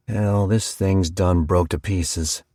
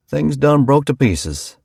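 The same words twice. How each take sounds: First: Slow, unhurried country farmer; slow farmer drawl. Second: Higher, slowed, pressed home on done; emphatic farmer. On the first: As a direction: let it roll out slow and heavy. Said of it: "Luke McGuire said". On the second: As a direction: nail the point, done leaned on. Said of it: "he said". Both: A narrator's reading.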